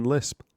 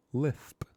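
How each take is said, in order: First: Said in the usual way. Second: "Lisp" said with a lisp, the s turned to th; lisped pronunciation. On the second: Acted. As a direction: lisp the word "Lisp" as "Lithp". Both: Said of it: "or as we know it".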